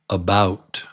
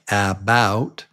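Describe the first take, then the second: First: The first vowel is a reduced schwa. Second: The first vowel is a full vowel. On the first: The speaker calls it right. "It's actually about" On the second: The speaker calls it wrong. "Looks like about"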